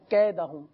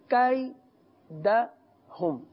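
First: The first vowel is a pure long vowel. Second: The first vowel is a gliding diphthong. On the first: The speaker calls it wrong. "مجھول کر دیا جاتا ہے" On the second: The speaker calls it right. "تو کیدہم نہیں"

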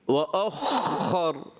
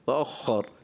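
First: The kh is a heavy, harsh gargling sound. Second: The kh is a light, soft friction sound. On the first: The speaker calls it wrong. "بہت خرخراہٹ کرتے ہیں جیسے بعض, وَأَخَّر بہت زیادہ تو خراب محسوس ہوتا ہے" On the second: The speaker calls it right. "خفیف سی تو خا کی ادائیگی"

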